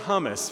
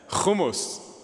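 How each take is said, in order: First: The word starts with a soft plain h. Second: The word starts with a harsh throat sound. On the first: The speaker calls it wrong. "No more hummus for you guys" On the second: The speaker calls it right. "Spit through your mask"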